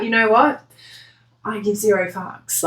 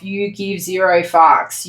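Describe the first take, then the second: First: Dismissive shrug. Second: Slow, heavy stress on "zero". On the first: Retold or imitated. Querent voiced brushing off crying people, mild dismissive shrug. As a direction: toss off "zero fucks" like you don't care. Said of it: "that's sort of the vibe". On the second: Shown as a demonstration. Reader telling the querent how cold they are, "zero" hit slow and heavy. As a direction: lean hard on "zero", slowly. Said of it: "stressed delivery of zero".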